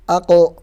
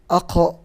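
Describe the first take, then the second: First: The q sound has no airy breath release. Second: The q sound has an airy breath release. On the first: The speaker calls it right. "Yang benar qaf murni tanpa ada hamsnya" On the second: The speaker calls it wrong. "dia keluar suara angin seperti ini"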